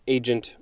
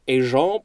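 First: The word is said with American English pronunciation. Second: The word is said with French pronunciation. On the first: "I just said it the English-American way" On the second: "it might be more accurately pronounced as agent provocateur"

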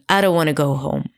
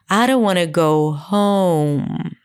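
First: The word 'home' is said low in pitch. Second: The word 'home' is said high in pitch. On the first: This is the Israeli Hebrew melody applied to English. "what I did was that I just dropped down. ... It was really low in pitch" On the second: This is the American English melody. "in English, home was higher in pitch"

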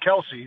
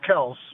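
First: The name is said with two syllables. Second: The name is said with one syllable. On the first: This is the version the family adopted. "everybody was calling him Kelsey" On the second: This is the standard version used elsewhere. "the correct pronunciation, the standard pronunciation is Kels"

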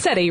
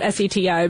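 First: The name is said as a single word. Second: The name is spelled out letter by letter. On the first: The speaker calls it right. "it is pronounced SETI" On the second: The speaker calls it wrong. "Not S-E-T-I"

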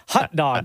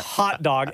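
First: The first word sounds like 'hut'. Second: The first word sounds like 'hot'. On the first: "like H-U-T-D-O-G" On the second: "not hot dog"

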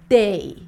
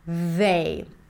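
First: The word starts with a D sound. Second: The word starts with a TH sound. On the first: The speaker calls it wrong. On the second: The speaker calls it right.

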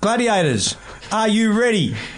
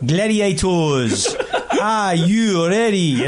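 First: It is said in his plain own accent. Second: It is said in a South African accent.

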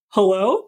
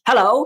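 First: It sounds unsure and confused. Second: It is yelled confidently, like the captain.

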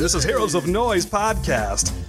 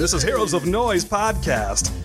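First: It is said in a put-on announcer voice. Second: The same.

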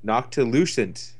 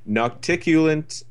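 First: The middle syllables sound like 'tilu'. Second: The middle syllables sound like 'ticu'. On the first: The speaker calls it right. "That's it" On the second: The speaker calls it wrong.

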